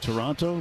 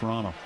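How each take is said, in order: First: The second t sound is clearly pronounced. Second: The second t sound is dropped. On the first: The speaker is not from there. The speaker calls it wrong. "If you go up there and you say Toronto, they know immediately" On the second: The speaker is a local. The speaker calls it right. "They don't pronounce it with a T either"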